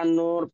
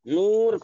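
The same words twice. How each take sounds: First: The vowel is an 'oh' sound. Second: The vowel is a long 'oo' sound. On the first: "मजहूल हो जाएंगे" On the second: "तो ये मारूफ होंगे"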